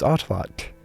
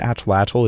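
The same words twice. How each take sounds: First: The tl is a T with air blown sideways. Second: The tl is said with an English L. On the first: The speaker calls it right. "you make a hard T sound and blow air out of both sides of your mouth" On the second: The speaker calls it wrong. "That's why saying atlatl is wrong"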